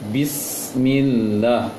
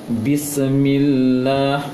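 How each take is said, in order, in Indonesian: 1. Huruf mati ditahan diam tanpa pantulan. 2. Huruf mati dilepas dengan pantulan. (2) "itu keliru"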